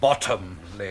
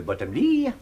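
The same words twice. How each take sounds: First: Bottomley stressed on the first syllable, BOT-tomley; Bottomley, leaning on BOT; correct pronunciation. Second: Bottomley said the French way, stress on the last syllable; Bottomley with a light French lilt, ending on ley; French pronunciation. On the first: Englishman corrects the host's pronunciation of his name. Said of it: "Accent on the bottom". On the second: Host mangles the English guest's name in French. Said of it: "Bottomley, if you don't mind". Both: Acted.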